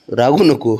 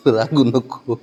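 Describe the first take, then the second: First: Firm soothing plea; रागू नको said plainly, a bit louder. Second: रागू नको stretched slowly with a laugh; slow, chuckling रागू नको; laughing plea. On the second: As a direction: tease him gently out of sulking. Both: Real, not acted. Soothing a sulking child.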